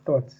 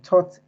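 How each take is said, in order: First: The first sound is a th. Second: The first sound is a plain t. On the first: The speaker calls it right. "sound out the th" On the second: The speaker calls it wrong. "use a t in place of the th"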